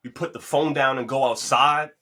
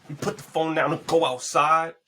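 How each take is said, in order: First: Said with weight, rising at the end; plain-ish first take of "we put the phone down and go outside"; emphatic. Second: High and loud, punching "go outside"; hammed-up emphatic repeat of "We put the phone down and go outside."; mad emphasis. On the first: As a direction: lean on "go outside" with a rise. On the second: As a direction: hit "go" hard, pitch way up. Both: Shown as a demonstration. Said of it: "I said it with mad emphasis".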